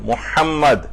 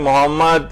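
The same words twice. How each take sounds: First: The m is held long with a throaty h. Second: The m is short with a plain h. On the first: The speaker calls it right. "तशदीद भी है इसके ऊपर" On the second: The speaker calls it wrong. "आपने मोहम्मद इस तरह से पढ़ा तो आपने अल्फाज भी बदल दिए"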